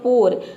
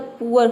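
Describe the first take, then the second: First: The vowel is a single 'o' sound. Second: The vowel glides from 'oo' to 'uh'. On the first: "फिर आपने रखा ओ" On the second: "पहले रखा ऊआ"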